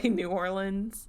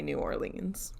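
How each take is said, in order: First: "New Orleans" as new OR-linz; local pronunciation. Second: "New Orleans" as new or-LEENZ; habitual pronunciation. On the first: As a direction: keep the end of "Orleans" short, like "linz". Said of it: "do my best to do". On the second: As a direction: say "Orleans" with a long, stressed "leens". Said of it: "if I get caught up in the moment". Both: Shown as a demonstration.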